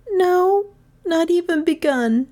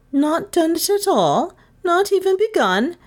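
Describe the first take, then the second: First: High schoolgirl answer, not a question; pupil admitting. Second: High, rising disbelief; incredulous teacher. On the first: Gentian answers the teacher before the class, admitting. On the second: Miss Todd to pupil with no answer, incredulous. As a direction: question it high, dipping then rising. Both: Acted.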